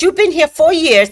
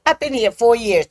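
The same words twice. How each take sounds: First: Louder, higher scolding; mock yell. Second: Said in the usual way. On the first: Officer yells about living here four years, mock yell. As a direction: scold her like she should know. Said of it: "she yelled at me". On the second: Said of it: "I said".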